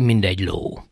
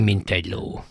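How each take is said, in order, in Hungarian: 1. Az 'mint' d hangra végződik. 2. Az 'mint' t hangra végződik. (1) "kiejtése az én beszédemben is, és általában a művelt beszédben mind" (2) "Nem pedig"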